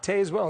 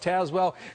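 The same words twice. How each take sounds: First: It uses the non-local pronunciation of the name. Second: It uses the local pronunciation of the name. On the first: The speaker calls it wrong. "It's not Tazewell" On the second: The speaker calls it right. "it's Tazewell"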